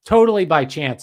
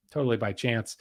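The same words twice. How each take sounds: First: Totally punched loud and sarcastic; loud ironic "totally by chance"; sarcastic emphasis. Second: "totally by chance" dropped low and soft; softer, lower ironic repeat; dry sarcastic mutter. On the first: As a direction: sell "totally by chance" with mock conviction. Sarcastic aside about the cult revival. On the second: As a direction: murmur it as an ironic aside, knowing. Sarcastic repeat after "I'm sure. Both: Acted.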